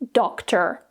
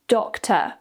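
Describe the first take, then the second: First: The final R sound is clearly pronounced. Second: The final R sound is not pronounced. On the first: "in the U S, where they use more rhotic accents" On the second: "in the U K with a non-rhotic accent speaker"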